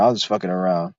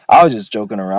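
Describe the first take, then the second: First: Much softer, lower aside; low muttered aside; quieter low repeat. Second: Said in the usual way. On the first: Real, not acted. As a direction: drop it low and soft.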